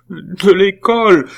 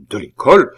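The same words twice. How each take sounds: First: High, loud, drawn-out wail; redoubled sobs. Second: Louder, rising echo question; incredulous question. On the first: Nephew confessing expulsion to his aunt, sobbing. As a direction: wail it like a blubbering boy. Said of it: "les sanglots de Pitou redoublèrent". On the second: Aunt echoing her nephew's news, incredulous. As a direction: repeat it as a startled question. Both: A narrator's reading.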